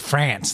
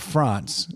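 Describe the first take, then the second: First: France is said with an American pronunciation. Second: France is said with a French-style pronunciation.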